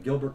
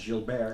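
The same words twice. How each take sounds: First: It is said with a plain English accent. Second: It is said with a French-Canadian accent.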